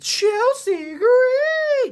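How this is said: Said in a dramatic, drawn-out announcer voice. The speaker calls it right.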